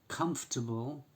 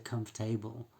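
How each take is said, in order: First: The ending is reduced with a weak vowel. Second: The ending is said fully like 'table'. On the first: The speaker calls it right. "we don't pronounce them like table" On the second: The speaker calls it wrong. "We don't say comfortable"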